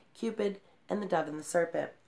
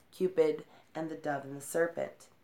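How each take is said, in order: No difference in how they are said.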